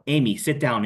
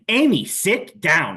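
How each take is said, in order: First: It is said calmly at a moderate volume. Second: It is said loudly with a harsh tone. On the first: The speaker calls it right. "Use a friendly a friendly tone. It's positive. It's a moderate volume" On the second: The speaker calls it wrong. "the harshness of my tone"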